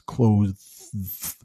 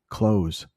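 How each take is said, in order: First: The TH sound is pronounced before the final S. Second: The TH is dropped, sounding like close. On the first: "There's a TH there, and then there is an S" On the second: "we just pronounce it like clothes"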